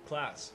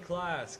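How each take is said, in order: First: It is said at the lowest pitch. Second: It is said at a high pitch. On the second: "It's high pitch"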